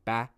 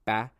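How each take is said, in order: First: The final d sound is dropped. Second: The same.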